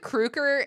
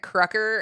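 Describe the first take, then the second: First: The name does not rhyme with trucker. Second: The name rhymes with trucker. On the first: "You said Kruger" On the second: "Krucker's like trucker"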